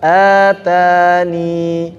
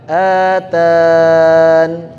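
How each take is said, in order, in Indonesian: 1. Kata ini berakhir dengan vokal panjang i. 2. Kata ini berakhir dengan konsonan n sukun. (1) "kalau wakaf ini sifar mustatil tetap dianggap iya-nya atani"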